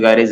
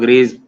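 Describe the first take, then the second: First: The name is said as two syllables, 'guy-rej'. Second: The name is said as one syllable, 'grays'. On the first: "कोई गायरेज anatomy" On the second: "उसको ग्रेज कोई pronounce करता है"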